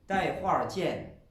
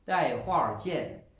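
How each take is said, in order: First: It is said with an r-coloured syllable ending. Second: The same.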